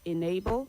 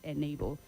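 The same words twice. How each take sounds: First: The first vowel is an ee sound. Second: The first vowel is not an ee sound. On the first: The speaker calls it right. "The E in the word enable takes the letter I sound" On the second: The speaker calls it wrong. "not enable"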